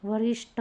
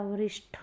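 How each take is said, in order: First: वरिष्ठ ending in a hard "ṭ"; wrong, unaspirated. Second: वरिष्ठ ending in breathy "ṭh"; correct, aspirated. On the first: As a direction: say वरिष्ठ as "varisṭ", no puff. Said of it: "नहीं होता". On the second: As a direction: say वरिष्ठ as "varisṭh", with a puff. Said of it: "होता है". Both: Shown as a demonstration.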